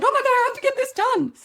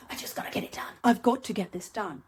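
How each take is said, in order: First: "Oh my God, I have to get this done." said much higher, louder and fast in a flustered rush; hammed-up hustle stress, high and rushed; frantic panic. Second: Said in the usual way. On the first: Shown as a demonstration. Podcaster showing listeners hustle energy, frantic high fast voice. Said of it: "You hear the difference, don't you?". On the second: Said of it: "You hear the difference".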